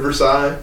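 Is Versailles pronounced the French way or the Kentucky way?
French. It is said with the standard French-style pronunciation. "instead of"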